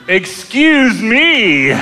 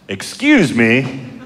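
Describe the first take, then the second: First: It is said in a jokey, mocking tone. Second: It is said in a polite, courteous tone. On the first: A joking apology for the fart. "Repeating what he said, but in a different way" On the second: A genuine request to get past. "he very politely says"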